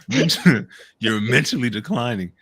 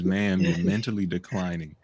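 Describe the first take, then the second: First: It is said in an aggressive tone. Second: It is said in a gentle tone.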